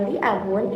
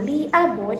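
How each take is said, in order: First: Said in the usual way. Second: "li abun" said as lii abun; long vowel on li. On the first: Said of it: "itu tidak menggunakan waktu". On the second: Shown as a demonstration. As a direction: stretch "li" in "li abun". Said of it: "itu menggunakan".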